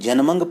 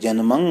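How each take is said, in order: First: The word ends with a clear g sound. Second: The word ends with a nasal hum, no g. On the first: The speaker calls it wrong. "जिहड़े लोग जन्मंग पढ़दे हैं गग्गे दे नाल, ਉਹ ਉਚਾਰਨ ਦਰੁਸਤ नहीं ਹੁੰਦਾ" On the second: The speaker calls it right. "ਉਹ ਉੱਤੇ ही टिप्पी ਦੀ आवाज़ आ जावे"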